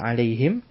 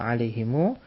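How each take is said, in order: First: The word ends on m with no vowel. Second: The word ends with a lengthened u vowel. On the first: This is a lightened form. "siapa yang memendekkannya" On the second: This is the original form. "Siapa yang memanjangkannya"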